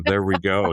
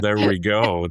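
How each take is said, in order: First: Said in the usual way. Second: Goofy nerd character voice; nerdy voice. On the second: Shown as a demonstration. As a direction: put on the dorky Payroll Nerd voice. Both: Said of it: "Nobody else could do the Payroll Nerd voice but you".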